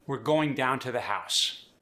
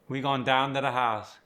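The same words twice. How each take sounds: First: Said in the usual way. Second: Cajun accent, "We going" with the verb dropped; easy Cajun, gon' down to the house. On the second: Shown as a demonstration. Coach showing Cajun grammar and accent. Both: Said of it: "with the Cajun accent".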